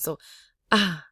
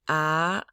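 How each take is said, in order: First: The vowel is said low with a breathy voice. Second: The vowel rises in pitch like a question. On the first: "this is the breathy low tone" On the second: "This is a rising questioning tone"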